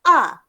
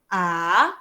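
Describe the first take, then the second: First: The pitch drops sharply, sounding angry. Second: The pitch rises a little upward. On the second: "naik sikit je"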